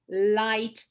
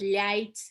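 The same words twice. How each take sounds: First: The l is hard, with the tongue not flattened. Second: The l is soft, with the tongue flattened. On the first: The speaker calls it right. "It's always me, li, light" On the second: The speaker calls it wrong. "but it's not light"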